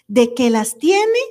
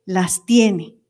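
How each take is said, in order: First: «tiene» subiendo, lento, como pregunta; «tiene» alargado con subida al final; rising question. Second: «tiene» más grave con caída firme; falling answer. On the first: («tiene» con entonación ascendente) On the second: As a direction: confirma «tiene» bajando el tono. («tiene» grave y descendente, afirmando) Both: Shown as a demonstration.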